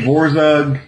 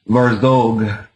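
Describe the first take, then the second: First: The first vowel is a plain 'o' sound. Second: The first vowel sounds more like 'a'. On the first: This is the band's own casual way of saying it. "I say Vorzug" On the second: This is the technically correct way with the umlaut. "if you're going to technical, I believe it would be Var, uh, Varzog is the pronunciation"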